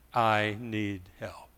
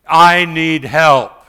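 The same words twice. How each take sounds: First: Helpless plea. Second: Loud, slow plea for help; desperate loud appeal; crying out to God. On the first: Retold or imitated. Helpless mother after stroke. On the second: Acted. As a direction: cry it out, drawn long and loud. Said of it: "when I cry out".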